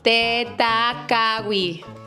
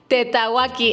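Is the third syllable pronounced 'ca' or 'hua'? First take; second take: ca; hua. First: The third syllable is said with a k sound. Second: The third syllable is said with a w sound. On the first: The speaker calls it right. "el nombre correcto del cerro es Tetacawi" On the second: The speaker calls it wrong. "Todas las veces creo que lo dijimos mal"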